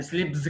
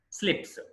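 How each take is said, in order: First: స్లిప్స్ as "slibz"; wrong voiced ending. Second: స్లిప్స్ as "slips", pitched higher; voiceless ending. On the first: Teacher showing learners the mistake, స్లిప్స్ as "slibz". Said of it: "కాదండి". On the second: Teacher correcting learners, స్లిప్స్ with voiceless "ps". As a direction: end స్లిప్స్ on hissed "ps". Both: Shown as a demonstration.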